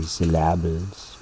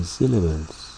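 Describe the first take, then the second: First: "syllables" with the stress moved to LAB; mispronounced syllables. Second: Said in the usual way. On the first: Shown as a demonstration. Teacher showing what we don't say, mispronounced syllables. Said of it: "We don't say syllables". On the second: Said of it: "we say syllables".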